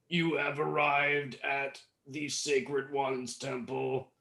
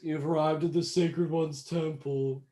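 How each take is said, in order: First: It is said in a normal speaking voice. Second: It is said in a put-on robotic voice.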